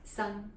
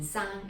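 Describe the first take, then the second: First: "Sang" with a short uh vowel, like sung; name pronunciation. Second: "Sang" with an open ah vowel, as in sahng; different pronunciation. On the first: Teacher shows Jackie Chan's name, short-uh "Sang". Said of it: "This pronunciation in his name". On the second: Teacher contrasts pronunciation of the character, open-ah "Sang". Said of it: "The pronunciation Sang is a little bit different". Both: Shown as a demonstration.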